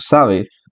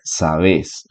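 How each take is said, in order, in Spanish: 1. La tensión está en la primera sílaba. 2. La tensión está en la última sílaba. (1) "No pronunciamos igual palabras como sabes" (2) "un argentino que diría sabes, porque ellos tienden a hacer agudas"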